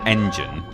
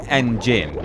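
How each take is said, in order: First: It is said like the ordinary word engine. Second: It is said as the letter N plus Gin. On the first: The name is treated as the word it puns on. The speaker calls it wrong. "You wouldn't say that's when you fight Engine" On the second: The initial N is kept as a separate letter. The speaker calls it right. "you would say N-Jin with that inflection"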